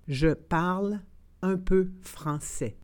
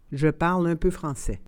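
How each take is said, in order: First: It is said slowly and carefully. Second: It is said at normal conversational speed. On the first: "then slowly said in French" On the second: "and then in communicational Canadian French"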